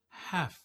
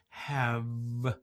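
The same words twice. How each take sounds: First: The word ends with an F sound. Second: The word ends with a V sound. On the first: The speaker calls it right. "it's have" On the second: The speaker calls it wrong. "it's not have"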